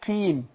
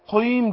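First: The q sound is light and thin. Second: The q sound is heavy and thick. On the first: The speaker calls it right. "لما بتكسر بتاخد أدنى درجات التفخيم" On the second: The speaker calls it wrong. "قيم دي لا"

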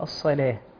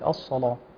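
First: The L sound is light and thin. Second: The L sound is heavy and velarized. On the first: The speaker calls it right. "والصواب هو الصلاة" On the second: The speaker calls it wrong. "البعض يعني يقول الصلاة"

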